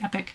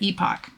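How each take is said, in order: First: The final syllable sounds like 'ick'. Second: The final syllable sounds like 'ock'. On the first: This is someone else's pronunciation. "somebody else I saw somewhere said, no, no, no, it's epic. That doesn't sound right to me" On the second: This is the speaker's usual pronunciation. "I've always said epoch"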